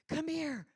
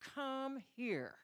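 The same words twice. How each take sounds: First: It is said in an urgent, pleading tone. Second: It is said in an angry, threatening tone. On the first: The speaker needs help. "I need help. I need someone to help me" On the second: The listener is in serious trouble. "It means death is following as soon as you get here"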